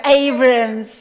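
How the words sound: The name is said the English way. The speaker calls it right. "The English one"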